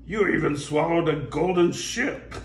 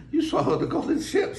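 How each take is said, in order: First: Lightly raised pirate voice; pirate line. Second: High mermaid voice. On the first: Pirate remarking on the golden ship, lightly raised. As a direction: begun in the wrong character. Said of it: "oh, said". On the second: Mermaid exclaiming at the golden ship, high. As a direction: redo as the mermaid. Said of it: "said the mermaid". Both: Acted.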